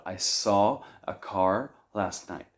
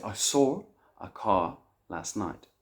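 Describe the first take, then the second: First: American accent, no r after "saw"; American, with "car" fully rhotic. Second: British accent with intrusive r, "sawr a cah"; British, linking "saw" with an r. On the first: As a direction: say it slowly in a US accent. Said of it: "In the U S, they don't have it". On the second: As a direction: say it slowly in a UK accent. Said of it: "in the United Kingdom, they might say". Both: Shown as a demonstration.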